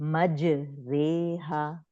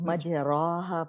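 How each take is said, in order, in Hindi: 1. r के बाद का स्वर लंबा ay है। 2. r के बाद का स्वर लंबा ah है। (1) "इसकी साउंड है मज रेहा" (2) "कुछ लोग मज राहा पढ़ते हैं"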